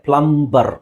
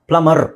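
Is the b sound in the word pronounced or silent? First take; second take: pronounced; silent. First: The b sound after m is pronounced. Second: The b sound after m is silent. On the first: The speaker calls it wrong. "ಇದು ಪ್ಲಂಬರ್ ಅಂತ ನಮಗೆ ಅನ್ಸುತ್ತೆ" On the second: The speaker calls it right. "ಬಿ silent ಆಗುತ್ತೆ"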